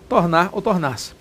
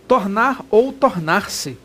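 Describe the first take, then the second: First: Said in the usual way. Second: Tornar ou tornar-se said slowly, each word drawn out; slow emphasis. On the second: Shown as a demonstration. Teacher drawing out Tornar ou tornar-se slowly for students. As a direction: drag out Tornar ou tornar-se so it sinks in. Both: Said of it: "Tanto faz".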